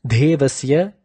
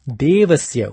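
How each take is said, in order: First: "Devasya" said as "Dhevasya", with a puff of breath; wrong-way demo of "Devasya" with aspirated dh; wrongly forced d. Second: "Devasya" with plain d, no puff of breath; unforced, unaspirated d in "Devasya"; d without force. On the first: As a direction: force air through the D of "Devasya". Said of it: "Pronouncing it as Devasya is wrong". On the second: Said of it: "pronounced as Devasya without the force". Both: Shown as a demonstration.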